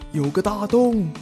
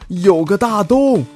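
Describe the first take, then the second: First: The voice sounds like a distant echo. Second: The voice sounds direct and close. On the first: This is only an echo of the remark. "刚刚那是回音" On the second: This is the actual spoken remark. "其实我只说一遍"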